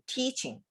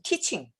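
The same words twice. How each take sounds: First: The first vowel is said long and drawn out. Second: The first vowel is said short and clipped. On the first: The speaker calls it right. "T가 길어요" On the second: The speaker calls it wrong. "이렇게 하면 안 돼요"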